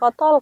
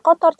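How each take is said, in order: First: The word ends with an L sound. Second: The word ends with an R sound. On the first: The speaker calls it wrong. "jangan kotol kayak gitu" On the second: The speaker calls it right. "kita sebutkan kata kotor"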